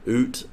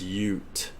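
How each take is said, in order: First: The word begins with a plain oo sound. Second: The word begins with a yoo sound. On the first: The speaker calls it wrong. "Oot is not correct" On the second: The speaker calls it right. "It's Ute"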